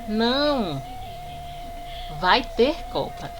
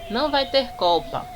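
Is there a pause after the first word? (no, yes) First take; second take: yes; no. First: There is a pause after the first word. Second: The sentence is read straight through without pausing. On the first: It answers no, then states there will be a World Cup. "estou respondendo, fazendo uma pausa" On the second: It is one exclamatory statement that there will be no World Cup. "aqui eu vou ler direto"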